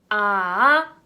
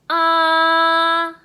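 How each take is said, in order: First: The pitch rises from middle to high. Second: The pitch stays high and level throughout. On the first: "미에서 솔로 올라간다 라고 생각을 해주세요" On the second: "일성은 솔에서 자신의 높이에서 솔까지 올라간 그 음에서 시작하셔야 돼요. 자, 길게 뻗어줍니다"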